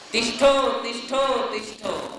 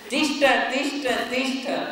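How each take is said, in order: First: The word ends with an 'o' sound. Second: The word ends with an 'a' sound. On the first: The speaker calls it wrong. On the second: The speaker calls it right.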